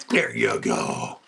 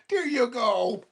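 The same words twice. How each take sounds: First: Low, slow and soothing; deep slow dog talk. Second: High, light reassurance; high dog praise. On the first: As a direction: drop way down and slow to calm him. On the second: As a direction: lift it up sweetly for the dog. Two takes to dog. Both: Real, not acted.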